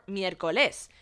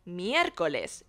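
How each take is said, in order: First: The stress falls on another syllable, not 'mier'. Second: The stress falls on the syllable 'mier'. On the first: The speaker calls it wrong. "it's not miércoles" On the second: The speaker calls it right. "but miércoles"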